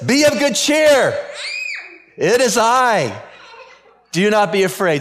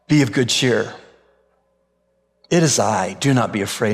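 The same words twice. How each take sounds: First: It is said loudly. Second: It is said softly.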